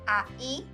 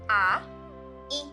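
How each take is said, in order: First: The two vowels run quickly into one sound. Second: The two vowels are said slowly and separately. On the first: "Now say it faster" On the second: "first pronounce each vowel separately"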